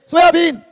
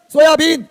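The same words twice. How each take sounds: The two takes are said the same way.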